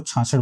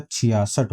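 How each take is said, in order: First: छाछठ as chhaa-chhath, two syllables; छाछठ in the popular wrong form, chhaa-chhath; common mispronunciation. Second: छियासठ with "chhiyaa" opening and s before -ath; छियासठ, three clear parts, chhi-yaa-sath; standard pronunciation. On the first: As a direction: say छाछठ with chh twice and no "ya". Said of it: "जो कि गलत है". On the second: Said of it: "सही उच्चारण जो हो". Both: Shown as a demonstration.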